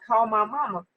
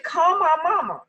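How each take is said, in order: First: Said in the usual way. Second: High, loud, crying plea for mom; childish wail for mama; whiny plea. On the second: Retold or imitated. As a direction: beg like a little kid, near tears. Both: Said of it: "grown woman me, talking about".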